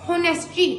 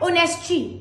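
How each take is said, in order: First: The word starts with an audible h sound. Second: The word starts with a vowel, no h. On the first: The speaker calls it wrong. "Not होनेस्टी" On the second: The speaker calls it right. "इसकी pronunciation है ऑनेस्टी"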